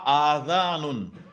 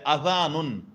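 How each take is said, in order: First: The first A vowel is long. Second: The first A vowel is short. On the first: The speaker calls it wrong. "et non pas adhanun" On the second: The speaker calls it right. "c'est adhanun"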